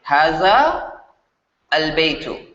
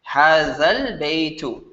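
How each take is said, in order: First: The two words are said separately, long vowel kept. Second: The words are linked, the long vowel shortened. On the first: "when you're reading these two words separately" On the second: "read them connectedly in one breath"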